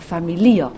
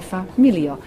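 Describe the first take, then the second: First: The stress falls on the expected syllable. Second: The stress falls on an unexpected syllable. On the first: The speaker calls it right. "kai yes" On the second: The speaker calls it wrong.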